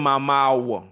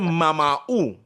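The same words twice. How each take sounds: First: It is said the other way, ending in 'wo'. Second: It is said the Trinidad way, ending in 'u'.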